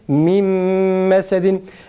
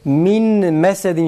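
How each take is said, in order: First: The first word ends in an m sound. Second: The first word ends in an n sound. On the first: The speaker calls it right. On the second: The speaker calls it wrong.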